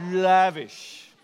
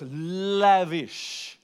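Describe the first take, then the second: First: "Lavish" said slowly and richly, falling at the end; savoured word. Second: "lavish" drawn out slowly and savoured, falling at the end; savoured word. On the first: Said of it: "Say it". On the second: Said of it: "It's one of those words". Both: Shown as a demonstration.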